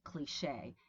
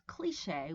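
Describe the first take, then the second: First: The stress is on the second syllable. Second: The stress is on the first syllable. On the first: "Americans prefer cliche, as in crochet" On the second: "British uh, pronunciation prefers cliche with the stress at the beginning"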